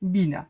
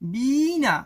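First: The first vowel is short and plain. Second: The first vowel is drawn out long. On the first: "আমরা উচ্চারণ এটাকেও বলি বিনা, simple" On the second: "এটার উচ্চারণ হওয়া উচিত বিনা"

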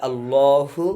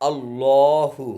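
The two takes are said the same way.

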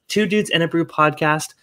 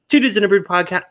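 First: The phrase is spoken more slowly. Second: The phrase is spoken very quickly. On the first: The speaker calls it right. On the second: The speaker calls it wrong.

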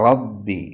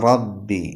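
Both takes have the same delivery.

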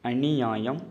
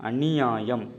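Both takes have the same delivery.

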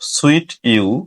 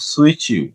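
First: A plain t sound comes before 'you'. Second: The t and 'you' merge into ch. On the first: The speaker calls it wrong. "সুইট ইউ না হয়ে" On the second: The speaker calls it right. "এটার উচ্চারণ হবে সুইচ ইউ"

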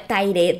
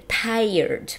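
First: The word ends with a 'red' sound. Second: The word ends with an 'erd' sound. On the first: The speaker calls it wrong. "Não é tired" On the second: The speaker calls it right. "A gente pronuncia como se essas duas letras estivessem invertidas"

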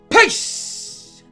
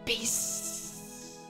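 First: It is said very loudly. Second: It is said more quietly.

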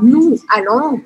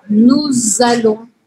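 First: The s of nous is silent before allons. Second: The s of nous links to allons as z. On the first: The speaker calls it wrong. "ao invés de eu falar nous allons" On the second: The speaker calls it right. "aqui a gente vai grudar"

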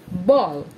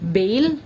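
First: The vowel is neither short nor long A. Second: The vowel is a long A sound. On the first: The speaker calls it right. "It's pronounced as ball" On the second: The speaker calls it wrong. "neither nor long A"

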